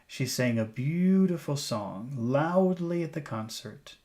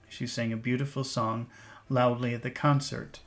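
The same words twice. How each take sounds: First: The sentence is read with lively, emphasized focus words. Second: The sentence is read fairly flat, without focus emphasis. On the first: "Let's read the sentence using intonation" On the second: "let's just read this sentence"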